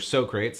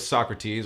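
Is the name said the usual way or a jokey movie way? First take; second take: jokey movie; usual. First: The name is given a jokey comedy-film pronunciation. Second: The name is given its usual pronunciation.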